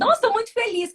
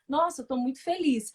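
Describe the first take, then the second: First: It is said in a lively, happy tone. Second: It is said in a flat, unhappy tone.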